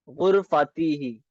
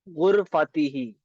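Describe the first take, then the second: The two takes are said the same way.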